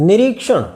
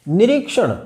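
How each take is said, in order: The two takes are said the same way.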